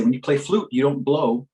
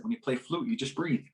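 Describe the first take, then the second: First: Said in the usual way. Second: Softer, soothing instruction; soft, calming. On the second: Retold or imitated. Teaching a crying child to breathe through flute, soft calm. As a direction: drop the volume and gently settle the listener.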